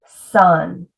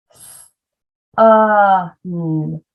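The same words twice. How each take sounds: First: Said in the usual way. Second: S, UH, N each said separately; sounds one by one. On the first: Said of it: "pulling the word back together". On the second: Shown as a demonstration. Teacher arm-tapping the first syllable, sound by sound. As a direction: hiss S, hold UH, then hum N. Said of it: "we break apart a word".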